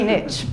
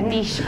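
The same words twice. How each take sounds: First: It is said the American way. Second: It is said the non-American way.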